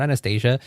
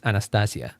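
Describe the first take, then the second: First: Anastasia with an English ay and zh sound; wrong English-style Anastasia; English pronunciation. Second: Anastasia with open a's and a clear s; right Spanish-style Anastasia; Spanish pronunciation. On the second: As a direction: Anastasia said the Spanish way, a-na-sta-sia. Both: Shown as a demonstration.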